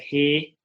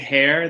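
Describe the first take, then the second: First: The word is said in a New Zealand accent. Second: The word is said in the speaker's usual accent.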